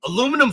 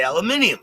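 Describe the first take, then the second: First: "Aluminum" in four syllables, uh-LOO-mi-num; American pronunciation. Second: "aluminium" in five syllables, al-yoo-MIN-ee-um; British pronunciation. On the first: Host setting up a contrast, "Aluminum" as uh-LOO-mi-num. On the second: Host stating his preference, "aluminium" as al-uh-MIN-ee-um. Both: Shown as a demonstration. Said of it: "I say aluminium".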